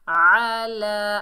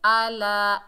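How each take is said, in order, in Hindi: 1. यह गहरी हलक की आवाज़ से शुरू होता है। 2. यह सादा ग्लोटल स्टॉप से शुरू होता है। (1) "आइन को हलक के दरमियान से अदा करेंगे" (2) "आइन की जगह हमजा नहीं पढ़ना आपने, आला ऐसे नहीं पढ़ना"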